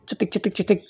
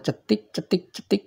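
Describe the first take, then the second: First: The clicks follow each other quickly and closely. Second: The clicks are spaced slowly with long gaps. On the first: The spark is strong and the valve will open. The speaker calls it right. "Cepat gitu ya" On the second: The spark is weak and the valve will not open. The speaker calls it wrong. "itu tidak bagus"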